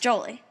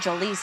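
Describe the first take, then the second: First: The stress is on the first syllable. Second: The stress is on the second syllable. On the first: The speaker calls it right. "But that's not my name. My name is Jolie" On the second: The speaker calls it wrong. "He puts the emphasis on Lee like Angelina Jolie's name"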